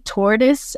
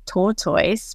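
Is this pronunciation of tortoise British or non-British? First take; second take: non-British; British. First: The word is said in a non-British way. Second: The word is said in a British way. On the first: This is the way the speaker does not say it. "I don't say tortoise" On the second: This is the way the speaker says it. "I say tortoise, because I learned that word from a British person"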